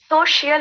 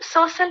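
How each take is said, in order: First: The word ends in a longer 'shiyal' sound. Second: The word ends in a short 'shal' sound. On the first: The speaker calls it right. "ये सोशियल होता है, शियल, last में शियल" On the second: The speaker calls it wrong. "ये सोशल media नहीं होता"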